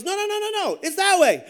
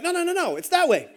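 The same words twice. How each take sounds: First: High-pitched, insistent mock protest; heated contradiction. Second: Insistent objection. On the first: Another lost swimmer arguing the way back, heated contradiction. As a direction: pitch the string of no's way up, then land loud. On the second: Retold or imitated. Retold argument over which way back.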